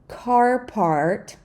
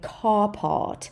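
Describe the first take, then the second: First: The R in part is clearly pronounced. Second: The R in part is silent. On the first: "in American, we say the R everywhere" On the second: "in British, this would sound like car pot"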